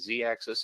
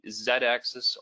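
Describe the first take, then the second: First: The letter Z is said as zee. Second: The letter Z is said as zed.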